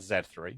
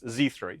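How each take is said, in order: First: The letter Z is said the British way. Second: The letter Z is said the non-British way. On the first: This is how the speaker normally says it. "being British, I call that Z three" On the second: This is how the listeners would say it. "in a way your audience will understand"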